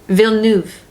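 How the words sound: The name is pronounced the French way. The speaker calls it right. "That's very French"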